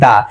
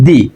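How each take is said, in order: First: The word ends in a short 'uh' vowel. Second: The word ends in an 'ee' vowel. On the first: The next word starts with a consonant. "যদি দা T H E এর পরে যদি consonant দ্বারা ওয়ার্ডটা শুরু হয় তাহলে হচ্ছে কি" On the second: The next word starts with a vowel. "আর যদি বাওয়েল দ্বারা ওয়ার্ডটা শুরু হয় তাহলে হচ্ছে দি"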